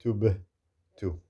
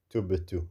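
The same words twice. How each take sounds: First: "Tubtu" with a jerked bouncing b, pause before "tu"; qalqala. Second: "Tubtu" in one go with a slight bounce on b; qalqala, joined. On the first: Teacher shows ba with sukoon, a jerk. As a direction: bounce the b of "Tubtu", then break. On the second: Teacher repeats ba with sukoon, joined qalqala. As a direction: jerk the b of "Tubtu" straight into tu. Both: Shown as a demonstration. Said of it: "with a bit of a jerk there".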